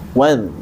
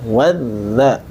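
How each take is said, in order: First: The word ends on a bare consonant. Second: The word ends with an added vowel. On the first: The speaker calls it right. "dal yang dalam keadaan sakinah" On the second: The speaker calls it wrong. "kalau kita membacanya wadha berarti bergerak"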